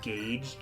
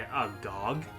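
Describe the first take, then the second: First: The vowel rhymes with 'page'. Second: The vowel rhymes with 'log'. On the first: The speaker calls it right. "correct pronunciation of gauge" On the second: The speaker calls it wrong. "I was like, eh, a gog"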